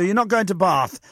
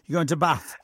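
First: It is said in a southern English accent. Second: It is said in a northern English accent.

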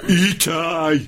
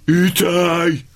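Both takes have the same delivery.

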